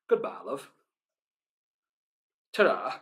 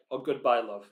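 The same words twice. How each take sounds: First: Casual northern English farewell, soft; northern accent. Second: Said in the usual way. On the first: Shown as a demonstration. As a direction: say it like a northern goodbye to a friend. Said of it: "With my northern accent, it just sounds like I'm saying". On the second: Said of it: "With my northern accent".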